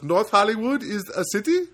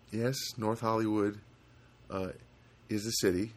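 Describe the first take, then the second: First: Put-on high, loud Indian accent, climbing at the end; questioning Indian accent. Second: Said in the usual way. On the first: Agent querying the caller's address, questioning Indian accent. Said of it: "And he goes".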